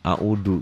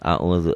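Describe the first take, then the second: First: The middle consonant is a plain d. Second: The middle consonant is a dh sound. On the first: The speaker calls it wrong. "ini penyakit orang Sunda, audu katanya" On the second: The speaker calls it right. "Padahal a'udzu zal"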